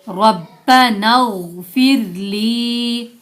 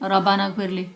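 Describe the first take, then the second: First: The sounds run together and the final 'li' is long. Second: The sounds stay separate and the final 'li' is short. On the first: The speaker calls it right. "ली को लंबा नहीं करते" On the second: The speaker calls it wrong. "यहाँ क्या गलती करते हैं"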